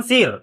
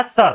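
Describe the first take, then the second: First: सिर with a short i vowel; सिर, vowel as in "sit"; expected wrong reading. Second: सर with an "uh" vowel; सर, neutral vowel before the r; correct pronunciation. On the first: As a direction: say सिर as "sir" with an "ih" before the r. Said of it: "ऐसे पढ़ते हैं अपन". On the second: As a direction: say सर without any i sound. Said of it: "ई नहीं निकलने देगा". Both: Shown as a demonstration.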